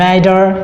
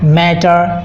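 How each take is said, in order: First: The middle T sounds like a soft D. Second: The middle T sounds like a clear T. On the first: The speaker calls it right. "এখানে টিটা ডি এর মতো উচ্চারণ হয়েছে" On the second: The speaker calls it wrong. "আমরা যে normally pronunciation করি"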